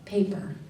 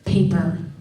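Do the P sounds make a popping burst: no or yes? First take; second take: no; yes. First: The P sounds are soft without a burst. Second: The P sounds pop with a strong burst. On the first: The speaker calls it right. "It has to be paper. You hear the difference? It's not that I'm saying it any louder" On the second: The speaker calls it wrong. "if I go paper, they have to redo it"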